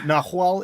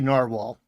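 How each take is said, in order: First: It sounds like nah-wahl, without the animal sound. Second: It sounds like the animal name narwhal. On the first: The speaker calls it right. "but nahual" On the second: The speaker calls it wrong. "in my brain I say narwhal, which is that's not it"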